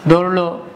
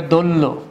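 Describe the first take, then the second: First: Said in the usual way. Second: দৌড়লো said as dol-lo, r dropped. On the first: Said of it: "এটা হলো". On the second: Shown as a demonstration. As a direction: double the ল in দৌড়লো in place of the r. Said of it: "তোমার র লোপ পাইছে".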